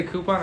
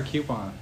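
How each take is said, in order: First: Coupon said "KOO-pon"; coupon without y. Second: Coupon said "KYOO-pon". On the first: Friend wondering which he says, coupon as "KOO-pon". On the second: Friend weighing the alternative, coupon as "KYOO-pon". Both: Shown as a demonstration. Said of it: "Do I say coupon or coupon?".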